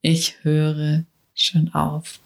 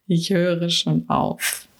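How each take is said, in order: First: Slow, lowered echo of "Ich höre schon auf"; slower, lower repeat. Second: Said in the usual way. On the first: Shown as a demonstration. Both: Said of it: "Eklig, ne? Diese Worte".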